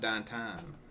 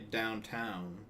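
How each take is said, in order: First: The vowel sounds like ah. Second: The vowel sounds like ow. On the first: "The ah instead of ow" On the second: "you don't say downtown"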